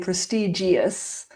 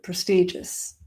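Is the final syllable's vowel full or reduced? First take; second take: full; reduced. First: The final syllable has a full vowel. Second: The final syllable has a weak, reduced vowel. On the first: The speaker calls it wrong. "We don't say prestigious" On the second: The speaker calls it right. "but prestigious"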